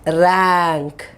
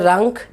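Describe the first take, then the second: First: The vowel is the one in 'apple'. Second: The vowel is not the one in 'apple'. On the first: The speaker calls it right. "you say rank. Ra. A. ... Apple" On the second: The speaker calls it wrong. "you don't say rank"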